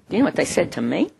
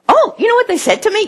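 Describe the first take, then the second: First: It sounds disapproving, promising bad news. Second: It sounds pleased, promising good news.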